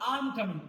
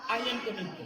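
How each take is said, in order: First: I am is squeezed into one short syllable. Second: I am is said as two full words. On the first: The speaker calls it right. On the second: The speaker calls it wrong.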